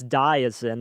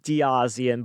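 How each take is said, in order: First: No extra vowel comes before the final syllable. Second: An extra vowel comes before the final syllable. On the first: The speaker calls it right. "but it's Diazin. That's how he said it" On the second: The speaker calls it wrong. "looks like Diazian"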